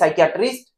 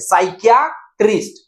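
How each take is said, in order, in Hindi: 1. शब्द एक इकाई की तरह सहजता से बोला जाता है। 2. शब्द अलग-अलग अक्षरों में बंटा हुआ है। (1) "उसके बाद जोड़ लीजिए" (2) "आप इसे तोड़ करके पढ़िए"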